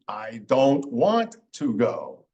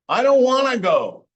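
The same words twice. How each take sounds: First: Each word is said fully and separately. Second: The words are reduced and run together. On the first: "which is supposed to be" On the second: "some examples of common American English"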